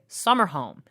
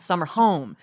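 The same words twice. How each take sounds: First: The stress falls on the word summer. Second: The stress falls on the word home. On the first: The speaker calls it right. "I want you to say summer home" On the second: The speaker calls it wrong. "not summer home. ... he was putting the emphasis on the word home"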